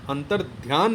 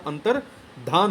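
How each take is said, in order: First: अंतर ध्यान with audible y, "dhyaan"; wrong form. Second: Slow अंतर्धान, "dhaan" without y; correct form. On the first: Teacher repeats the error, अंतर ध्यान with "dhyaan". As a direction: sound the glide in अंतर ध्यान. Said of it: "नहीं होता". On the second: Teacher repeats the correction, slow अंतर्धान with "dhaan". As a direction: stretch अंतर्धान with no glide. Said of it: "होता है". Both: Shown as a demonstration.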